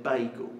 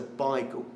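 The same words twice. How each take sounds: First: "bagel" said like BAY-gul; mimicked mispronunciation. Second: "bagel" said like BY-gul; corrected pronunciation. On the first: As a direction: say "bagel" with an ay vowel, the standard way. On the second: Retold or imitated. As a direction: say "bagel" with an eye vowel, as in East London. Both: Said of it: "you said bagel".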